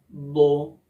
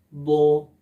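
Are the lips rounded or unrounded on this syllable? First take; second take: rounded; rounded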